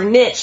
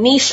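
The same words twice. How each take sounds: First: It is said the American way. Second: It is said in a non-American way.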